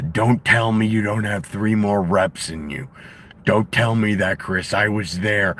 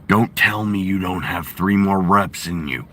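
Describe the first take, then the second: First: Karrion Kross's Jesse impression. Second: Jesse Ventura impression. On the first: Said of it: "does the". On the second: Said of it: "I've been working on my Jesse Ventura".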